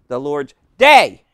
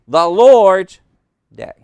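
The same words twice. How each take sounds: First: The stress falls on the word day. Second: The stress falls on the word Lord's. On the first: The focus is on the day itself. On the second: The focus is on whose day it is. "Noun, genitive case"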